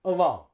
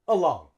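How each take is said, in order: The two takes are said the same way.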